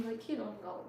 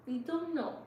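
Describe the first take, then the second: First: Said in the usual way. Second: Don't lifted higher and pressed; stress on don't. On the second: Real, not acted. Streamer insisting to her viewers how much they mean, stressing don't. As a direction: lean hard into don't, higher.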